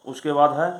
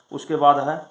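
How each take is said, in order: Both takes have the same delivery.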